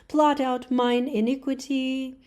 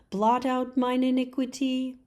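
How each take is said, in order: The two takes are said the same way.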